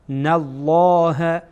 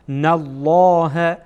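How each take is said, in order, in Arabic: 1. صوت L مفخّم وثقيل. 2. صوت L مفخّم وثقيل.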